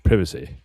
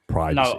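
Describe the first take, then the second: First: It is said in a British accent. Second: It is said in an American accent.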